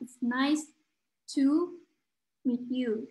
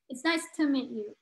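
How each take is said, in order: First: It is said slowly, with a full to. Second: It is said quickly, with to reduced.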